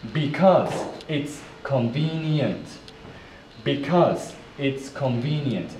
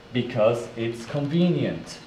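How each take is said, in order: First: "because it's convenient" in separate, measured chunks; careful model phrase. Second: Said in the usual way. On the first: Shown as a demonstration. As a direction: pause after "because" and "it's" for learners. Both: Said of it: "Let's put it together".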